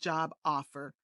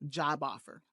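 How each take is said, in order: First: The two words are said separately. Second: The b sound links smoothly into the next word. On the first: The speaker calls it wrong. "Instead of job offer" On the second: The speaker calls it right. "here's the B sound in connected speech"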